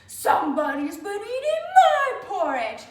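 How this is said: It is said in a deep, growly voice.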